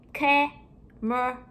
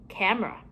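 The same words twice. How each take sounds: First: CAMERA split into three slow, separate syllables. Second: Said in the usual way. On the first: Shown as a demonstration. Teacher breaking down a word for pupils, syllable by syllable. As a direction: say CAMERA in drawn-out chunks with gaps.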